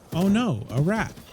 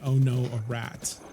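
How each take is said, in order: First: It copies the sound bite's distinctive intonation. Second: It is said with an ordinary, casual intonation. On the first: The speaker calls it right. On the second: The speaker calls it wrong.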